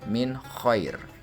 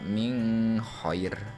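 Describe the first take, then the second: First: The n sound is pronounced clearly. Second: The n sound is not pronounced clearly. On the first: The speaker calls it right. "harus dibaca secara jelas min khair" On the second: The speaker calls it wrong. "Tidak boleh dibaca min khair"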